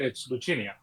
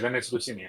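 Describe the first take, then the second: First: The name is given an Italian pronunciation. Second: The name is given a Spanish pronunciation. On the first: The name is taken to be Italian. The speaker calls it wrong. "if it's more Italian" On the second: The name is taken to be Spanish. The speaker calls it right. "It'd be more Spanish"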